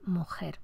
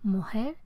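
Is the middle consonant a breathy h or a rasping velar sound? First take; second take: rasping velar; breathy h. First: The middle consonant is a rasping velar fricative. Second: The middle consonant is a soft breathy h. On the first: "en lugar de mujer" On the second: "la realización como aspirada"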